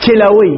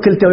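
First: كلوي with no ta, given as the right one; the accepted form كلوي; correct form. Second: كلتوي with the ta kept, marked as wrong; the rejected form كلتوي. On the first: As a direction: answer with كلوي, the form the Arabs use. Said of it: "يقول ماذا؟". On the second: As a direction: say كلتوي as the form the Arabs do not use. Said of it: "ما يقولون في العرب". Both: Shown as a demonstration.

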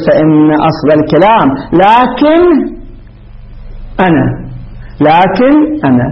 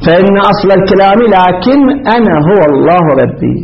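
First: "لكن أنا" read slowly with a doubled, stressed nun in "لكن"; wrong doubled nun. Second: "لكن" said with a light, unstressed single nun that runs into "أنا"; corrected reading. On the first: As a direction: drag out "لكن" with a geminated nun before "أنا". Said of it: "غلط، غلط، يعني مو مشددة نون". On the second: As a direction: read "لكن أنا" smoothly with the nun not doubled. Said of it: "وأنا مسكن النون". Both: Shown as a demonstration.

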